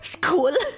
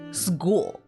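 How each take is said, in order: First: The consonant after S sounds like a K. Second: The consonant after S sounds like a G. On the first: "I don't say school" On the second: "I say school like a G sound"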